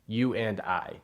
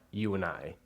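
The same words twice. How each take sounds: First: Every word is said fully and carefully. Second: The words run together in a reduced form. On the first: This is what courses teach. "the correct language" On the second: This is how people really talk.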